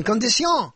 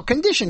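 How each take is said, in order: First: Condition as French "kon-dee-SYON"; French-style condition, stressed at the end; French pronunciation of condition. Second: Said in the usual way. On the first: Shown as a demonstration. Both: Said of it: "put different emphasis".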